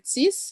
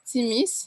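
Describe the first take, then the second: First: The word is said in a shortened, contracted form. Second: The word is said in its full form. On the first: "that is like a contraction of both words" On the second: "the first one is timis"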